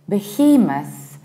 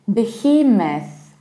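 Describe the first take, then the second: Both takes have the same delivery.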